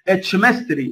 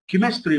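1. الكلمة تبدأ بصوت ch. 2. الكلمة تبدأ بصوت k. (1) "ما تقولش اتشمستري" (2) "كيمستري تنطق كي"

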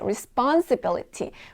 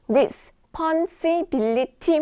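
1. 이 단어는 한 번에 부드럽게 이어져 발음돼요. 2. 이 단어는 음절들이 뚝뚝 끊어져 따로 발음돼요. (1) "한 번에 부드럽게 가셔야 돼요" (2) "단어 하나를 나눠가지고 막 responsibility 막 이렇게 하시는 분들 있죠"

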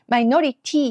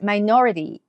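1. このtは、しっかりした硬いt音です。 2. このtは、rのような軽いフラップ音です。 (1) "マイノリティにならないようにね" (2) "ラディドレドのリみたいな感じです"

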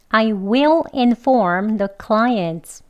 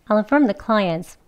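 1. 이 문장은 천천히, 조심해서 말합니다. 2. 이 문장은 빠르게, 단어를 이어서 말합니다. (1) "천천히 두 번 해볼게요" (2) "속도도 조금 빠르게 해볼게요"

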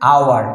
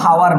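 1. শব্দটি সরাসরি একটি স্বরধ্বনি দিয়ে শুরু হয়। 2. শব্দটি একটি স্পষ্ট h ধ্বনি দিয়ে শুরু হয়। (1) "এটা হচ্ছে আওয়ার" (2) "এটা কিন্তু হাওয়ার নয়"

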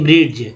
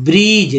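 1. अंत से पहले d ध्वनि उच्चारित होती है। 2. अंत से पहले d ध्वनि उच्चारित नहीं होती। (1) "ना कि" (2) "डी का उच्चारण नहीं करना है"

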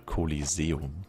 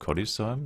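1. Das Wort wird voll, länger ausgesprochen. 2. Das Wort wird kurz, verkürzt ausgesprochen.

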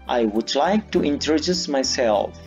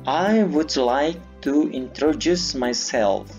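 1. Kalimat ini diucapkan dengan kecepatan normal. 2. Kalimat ini diucapkan pelan dan hati-hati.

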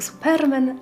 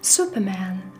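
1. Słowo wymawia się z polską wymową. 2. Słowo wymawia się z angielską wymową. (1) "Po polsku Superman" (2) "po angielsku należy przeczytać Superman"

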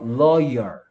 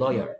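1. 이 단어는 천천히 또박또박 발음합니다. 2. 이 단어는 빠르고 부드럽게 발음합니다.

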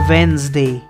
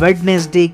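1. बीच का d sound silent है। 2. बीच का d साउंड बोला जाता है। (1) "एक्चुअल में करेक्ट जो है वो है वेंसडे" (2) "ना कि वेडनेसडे"

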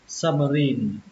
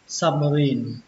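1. Âm tiết cuối có trọng âm. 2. Âm tiết cuối có trọng âm.

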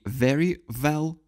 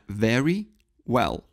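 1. Оба слова начинаются с одного и того же звука. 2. Эти два слова начинаются с разных звуков. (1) "не" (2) "это very well. В выражении very well начальные звуки разные"

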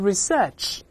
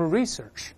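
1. 重音在第二个音节。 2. 重音在第一个音节。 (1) "当然英国人都是research" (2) "美音多数重音在前面，都是research"

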